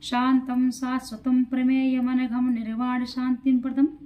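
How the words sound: The words are read together in one continuous flow. "अब एक साथ पढ़ेंगे"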